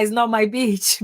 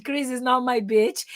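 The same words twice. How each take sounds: First: Said in the usual way. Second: "beach" said with a short i, like bitch; imitating the student's short-vowel "beach"; wrong pronunciation. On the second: Teacher retelling a student's slip on "beach", short i. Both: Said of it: "he used the incorrect pronunciation".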